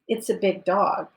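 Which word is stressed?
dog. The stress falls on the word dog. It is a dog, not another animal. "No, it's a wolf"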